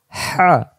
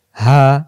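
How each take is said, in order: First: Higher "হা" with a whooshing h; hissing throaty ha. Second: "হা" as an open, unsqueezed h; louder, easy-breathed "হা"; plain deep ha. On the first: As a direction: tighten mid-throat for a rasped "হা". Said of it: "শো শো আওয়াজে". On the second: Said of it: "দুই অক্ষর দুই রকম উচ্চারণ". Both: Shown as a demonstration.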